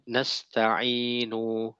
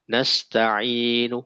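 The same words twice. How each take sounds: First: The final vowel is fully pronounced. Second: The final vowel is short and faint. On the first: The speaker calls it wrong. "itu salah" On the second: The speaker calls it right. "dia hanya dua per tiga"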